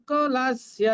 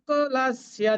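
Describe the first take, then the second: No difference in how they are said.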